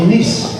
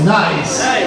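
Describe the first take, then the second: First: The vowel is a short 'ee' sound. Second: The vowel is an 'eye' diphthong. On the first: "en français, ça se dit Nice" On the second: "mais en anglais c'est nice"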